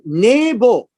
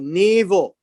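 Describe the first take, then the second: First: The middle consonant is a b sound. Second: The middle consonant is a v sound.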